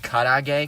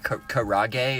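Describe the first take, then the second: First: It is said with a Japanese-style pronunciation. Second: It is said with an English-style pronunciation. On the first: The speaker calls it right. "fried chicken in Japan is called karage" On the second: The speaker calls it wrong. "if you don't want to pronounce it correctly"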